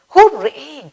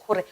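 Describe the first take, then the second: First: Bright, high cheer; joyful hooray. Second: Said in the usual way. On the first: Shown as a demonstration. Teacher cheers about going on a picnic.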